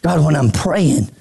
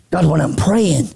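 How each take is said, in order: Both takes have the same delivery.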